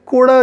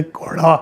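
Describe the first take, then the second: First: Said in the usual way. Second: कोड़ा with a deep, low Punjabi tone. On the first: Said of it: "deep tone लगा दें जैसे कोड़ा". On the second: Shown as a demonstration. Lecturer showing students the Punjabi tone that turns whip into horse, deep tone. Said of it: "deep tone लगा दें".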